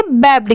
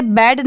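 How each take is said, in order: First: "बैब्ड" as one syllable ending in a bd cluster; ending sounded babd. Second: "बैड" closing on a lone d; "बैड" as in English bad; wrong reading bad. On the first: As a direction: say "बैब्ड", closing on b-d. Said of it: "बैब्ड की sound आएगी". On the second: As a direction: say "बैड" with no b before the final d. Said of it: "इसे बैड नहीं पढ़ेंगे". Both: Shown as a demonstration.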